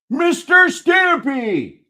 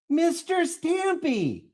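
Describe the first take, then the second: First: It is yelled loudly. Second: It is said at normal volume.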